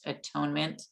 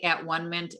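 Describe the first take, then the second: First: The word is said smoothly as atonement. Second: The word is split into at, one, ment. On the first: "it is pronounced atonement" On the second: "I say at-one-ment"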